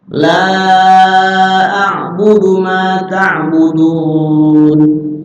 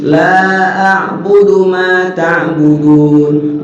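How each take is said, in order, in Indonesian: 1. Vokal 'la' dibaca empat atau lima ketukan. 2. Vokal 'la' dibaca dua ketukan. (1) "Dibaca empat sampai lima nggak apa-apa juga" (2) "dibaca dua ketukan doang nggak apa-apa"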